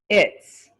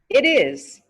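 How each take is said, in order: First: It is said as one contracted word. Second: It is said as two full words.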